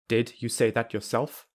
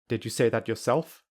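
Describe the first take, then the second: First: The d and you are kept separate. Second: The d is dropped or softened. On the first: "I will say them without linking" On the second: "I will say them without a d or a softer d"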